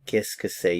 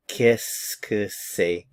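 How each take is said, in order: First: Said in the usual way. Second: Qu'est-ce que c'est stretched slow as kiss-kuh-say; slow French demo. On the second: Shown as a demonstration. Teacher models Qu'est-ce que c'est slowly. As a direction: spell out the sounds slowly. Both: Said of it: "Listen to the pronunciation".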